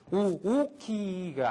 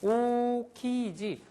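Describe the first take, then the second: First: The first vowel is said twice as separate sounds. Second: The first vowel is held as one smooth sound. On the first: The speaker calls it wrong. "오오키가 아니라는 소리죠" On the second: The speaker calls it right. "하나를 생략을 하고 요거가 있을 만큼의 포즈를 시간을 잡아주는 거죠"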